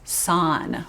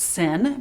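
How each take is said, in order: First: The vowel is a full o-like sound. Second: The vowel is a short, reduced i-like sound. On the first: This pronunciation shows the spelling of the syllable. "but really it's son" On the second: This is how the syllable is naturally heard. "It sounds like it's sin"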